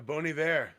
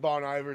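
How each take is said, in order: First: The name is said with French pronunciation. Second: The name is said with English pronunciation. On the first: The speaker calls it right. "It's like uh, it's French" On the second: The speaker calls it wrong. "I probably called it Bon Iver too for a long time"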